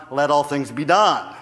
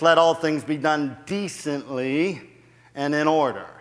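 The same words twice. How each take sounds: First: "let all things be done" punched, landing hard on "done"; forceful "be done", falling at the end; stress on DONE. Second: "decently" leaned on, in an even voice; measured reading, emphasis landing late on "decently"; stress on decently. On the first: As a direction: drive emphatically through to "done". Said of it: "I put the emphasis on". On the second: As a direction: put the weight on "decently and in order". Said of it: "too many people put the emphasis on". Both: Shown as a demonstration.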